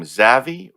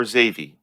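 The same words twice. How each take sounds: First: "Zavi" with a short a, as in savvy; "Zavi" tried with a short first vowel; first pronunciation guess. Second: "Zavi" with a long a, as in navy; "Zavi" tried with an ay sound; alternative pronunciation guess. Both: Shown as a demonstration. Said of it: "don't know how to pronounce your name".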